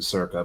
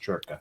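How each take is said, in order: First: The name is said with an English pronunciation. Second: The name is said with an Italian pronunciation. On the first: "we pronounce it Circa" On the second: "I'm trying to learn Italian. It's pronounced Churka"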